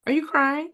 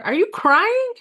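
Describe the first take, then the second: First: Said in the usual way. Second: Crying pitched high and loud in shock; high astonished rise on crying; surprised question. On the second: Real, not acted.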